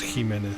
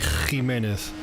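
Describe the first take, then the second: First: The first consonant is soft and light. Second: The first consonant is strong and harsh. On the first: This is the speaker's own softer way of saying it. "I pronounce it the soft Spanish way" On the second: This is how it is said in some places in Spain. "the beginning would be much stronger"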